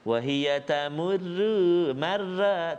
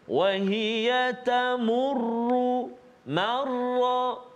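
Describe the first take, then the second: First: The r sounds are thin and light. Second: The r sounds are thick and heavy. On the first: The speaker calls it wrong. "tipis, tak nak" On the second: The speaker calls it right. "Tebalkan dia"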